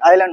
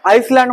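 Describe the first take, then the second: First: No s or z sound is heard. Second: An s sound is heard in the middle. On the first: The speaker calls it right. "तर आयलँड ... म्हणायचं" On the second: The speaker calls it wrong. "आईसलँड म्हणतात पोरं"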